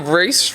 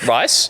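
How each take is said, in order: First: The vowel sounds like the one in 'piece'. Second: The vowel sounds like the one in 'nice'. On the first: The speaker calls it right. "I know it's Reese" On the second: The speaker calls it wrong. "I called him Rice"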